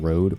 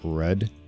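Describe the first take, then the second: First: The vowel is an 'oh' sound, as in road. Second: The vowel is an 'oo' sound, not 'oh'. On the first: The speaker calls it wrong. "like not road" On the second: The speaker calls it right. "but Rud"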